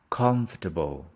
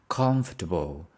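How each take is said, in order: Both takes have the same delivery.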